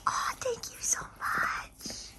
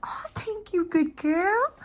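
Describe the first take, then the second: First: Very high soft whisper. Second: High cooing praise. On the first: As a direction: breathe the thanks to the dog. Thanking dog for kisses. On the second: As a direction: praise the dog sweetly. Praising the dog. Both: Real, not acted.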